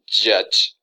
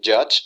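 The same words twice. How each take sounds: First: The j sounds are strong. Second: The j sounds are plain. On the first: This is the Vincentian Creole way. "It's a stronger uh, noise" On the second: This is the standard English way. "instead of saying judge"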